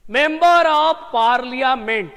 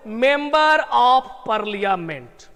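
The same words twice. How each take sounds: First: Member of parliament slow and a little louder, member stressed; slow, louder repeat. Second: Member of parliament said very slowly, member stressed; slow full form. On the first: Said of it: "हमने ऐसा लिख दिया". (मेंबर ऑफ पार्लियामेंट ज़ोर से दोहराते हुए) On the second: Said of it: "तो यहां पर देखो". (मेंबर ऑफ पार्लियामेंट बहुत धीरे) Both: Shown as a demonstration.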